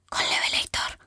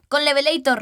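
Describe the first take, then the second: First: It is whispered very quietly. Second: It is shouted very loudly.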